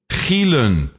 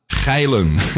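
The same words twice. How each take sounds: First: The first vowel sounds like 'ee'. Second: The first vowel sounds like 'eye'. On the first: This is the family name. The speaker calls it right. "My name is [name]" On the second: This is a word meaning being horny. The speaker calls it wrong. "not Gielen, which of course is being horny"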